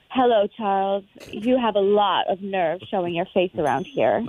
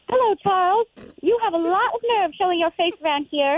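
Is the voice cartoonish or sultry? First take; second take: sultry; cartoonish. First: It is said in a sultry, sexy voice. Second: It is said in a cartoon character voice.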